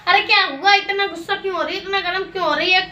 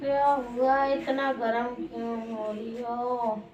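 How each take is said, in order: First: Higher-pitched, insistent questioning; agitated questioning. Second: Slow, low and hushed; soft soothing. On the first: Asking an angry partner what happened, agitated and insistent. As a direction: press for an answer, pitched up. Same question, livelier retake. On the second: Asking an angry partner why she is so heated, soft soothing. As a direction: draw it out softly and slowly. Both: Acted.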